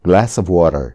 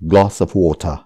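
First: It is said in an American accent. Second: It is said in a British accent.

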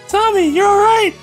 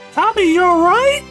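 First: It ends with a falling, exclaiming tune. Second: It ends with a rising, questioning tune.

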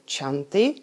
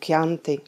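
First: The first sound is a soft 'ch' sound. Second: The first sound is a hard 'k' sound. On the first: The speaker calls it wrong. "nebudeme vyslovovat ani číst jako Chianti" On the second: The speaker calls it right. "ale jako Chianti"

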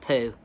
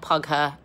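First: It is one syllable rhyming with two. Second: It has an added second syllable, like pew-er. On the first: "no, it's not Pooh" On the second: "No, it's not Pugher"

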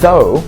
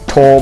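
First: It begins with a voiced th sound. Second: It begins with a plain t sound. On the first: The speaker calls it right. "ไม่ใช่นะฮะออกเสียงว่า" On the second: The speaker calls it wrong. "เห็นหลายคนชอบอ่านว่า"

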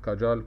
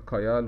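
First: The middle consonant is a 'j' sound. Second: The middle consonant is a 'y' glide. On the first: "وفي بعض بينطقها كاجال" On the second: "في بعض بينطقها كايال"

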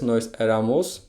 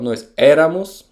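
First: The stress falls away from the first syllable. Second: The stress falls on the first syllable. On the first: The speaker calls it wrong. "to nie jest nós éramos" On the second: The speaker calls it right. "czyli też mamy akcent na początku"

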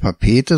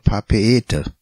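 First: The two e vowels run together as one. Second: The two e vowels are sounded one by one. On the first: The speaker calls it wrong. "auch nicht Papeete" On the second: The speaker calls it right. "nebeneinander stehende Vokale nicht verbunden gesprochen ... immer einzeln gesprochen"

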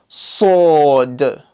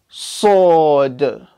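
No difference in how they are said.

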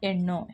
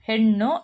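First: The word begins directly with a vowel. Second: The word begins with an h sound. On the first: The speaker calls it wrong. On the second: The speaker calls it right.

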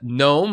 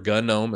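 First: The initial G is silent. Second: The initial G is pronounced.

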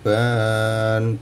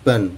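First: The vowel is drawn out long. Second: The vowel is cut short. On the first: The speaker calls it wrong. "bukan ban" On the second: The speaker calls it right. "tapi ban pendek"

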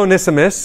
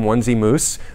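First: The name is said as one word, Onesimus. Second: The name sounds like 'Onesie' plus 'Moose'. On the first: The speaker calls it right. "It is Onesimus" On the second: The speaker calls it wrong. "we would call him Onesie Moose, but that is not a correct pronunciation"

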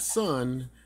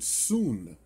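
First: The vowel is a short 'uh' sound. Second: The vowel is a long 'oo' sound. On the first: The speaker calls it wrong. "not Sun, as many of us have erroneously pronounced his name" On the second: The speaker calls it right. "it's actually pronounced Jason Soon"

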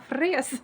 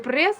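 First: The word begins with an F sound. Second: The word begins with a P sound. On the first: The speaker calls it right. "а фрес" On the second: The speaker calls it wrong. "Не прес"

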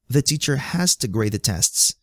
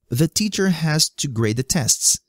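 First: Has to is reduced to one quick 'hasta'. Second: Has to is said as two full words.

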